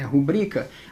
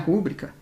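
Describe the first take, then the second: First: The stress is on the second syllable. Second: The stress is on the first syllable. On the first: The speaker calls it right. "A sílaba tônica é a segunda" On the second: The speaker calls it wrong. "Aqui não é rúbrica"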